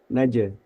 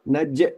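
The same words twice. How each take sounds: First: The bounce is left to fade out naturally. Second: The bounce is cut off with a catch. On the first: The speaker calls it right. "Biarkan saja bunyi itu sampai melemah dengan sendirinya" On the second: The speaker calls it wrong. "Kurang tepat ketika misalkan eh kol-kolah ini ditahan"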